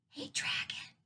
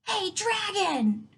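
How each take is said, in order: First: It is whispered very softly. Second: It is shouted as loud as possible.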